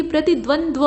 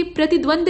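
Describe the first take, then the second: First: प्रतिद्वंद्व ending in dva; correct ending. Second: प्रतिद्वंद ending on a plain d; wrong ending. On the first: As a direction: end प्रतिद्वंद्व on a clear dva. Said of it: "बल्कि प्रतिद्वंद्व". (सही प्रतिद्वंद्व, द्व के साथ) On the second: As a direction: end प्रतिद्वंद on d. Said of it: "प्रतिद्वंद नहीं". (गलत प्रतिद्वंद, द पर खत्म) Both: Shown as a demonstration.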